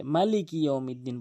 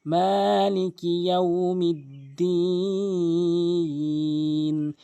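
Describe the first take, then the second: First: "মালিকি ইয়াউমিদ্দিন" with no lengthening; mistaken short vowels. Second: "মালিকি ইয়াউমিদ্দিন" chanted with long vowels; correct lengthening. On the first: Teacher quotes most people, "মালিকি" with short ma. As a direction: say "মালিকি ইয়াউমিদ্দিন" briskly, unchanted. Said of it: "অধিকাংশ লোক". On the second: Teacher recites correctly, "মালিকি" drawn out in chant. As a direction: slowly stretch maa and final diin in "মালিকি ইয়াউমিদ্দিন". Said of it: "এক আলিফ টেনে পড়তে হয়". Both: Shown as a demonstration.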